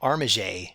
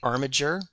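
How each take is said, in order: First: The name is pronounced in a French way. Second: The name is pronounced in a plain English way. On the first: "if I wanted to go with the French, I'd be calling him Armiger" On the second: "I say Armager"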